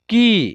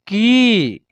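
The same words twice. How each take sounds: First: "की" with a short i, as ki; short vowel. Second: "की" with a long, held ee; long vowel. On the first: Teacher drilling barakhadi for learners, short i in की. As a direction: keep the vowel in की brief. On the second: Teacher drilling barakhadi for learners, long ee in की. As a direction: stretch की out as keee. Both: Shown as a demonstration. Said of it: "बड़ी ई की मात्रा बोलेंगे".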